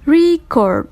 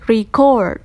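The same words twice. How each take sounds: First: The stress is on the first syllable. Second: The stress is on the second syllable. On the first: It is used as a noun. "For noun, the stressive on first syllable" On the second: It is used as a verb. "verb, the second syllable"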